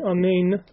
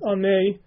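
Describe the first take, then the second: First: The final n sound is clearly pronounced. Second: The final n sound is dropped. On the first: The speaker calls it right. "enunciate the word properly" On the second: The speaker calls it wrong. "without pronouncing the nun sound properly at the end"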